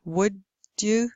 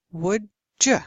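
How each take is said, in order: First: "would you" as two separate words; unassimilated d. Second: "would you" said as "would-juh"; assimilated d. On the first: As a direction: keep d and y apart in "would you". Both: Shown as a demonstration. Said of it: "This then is called assimilation".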